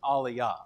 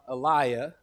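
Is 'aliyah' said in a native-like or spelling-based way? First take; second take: native-like; spelling-based. First: It is said in a more native-like way. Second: It is said the way English spelling suggests. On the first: The speaker calls it right. "the better pronunciation, even though I'm probably still butchering it" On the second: The speaker calls it wrong. "because I'm a Texan and that's what it looks like to me"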